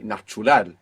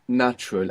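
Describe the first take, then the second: First: English sounds are kept but the stress is shifted. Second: It is said with ordinary English sounds. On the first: "you don't just want to change the accent and say natural. This is not Spanish" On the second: "So you know natural"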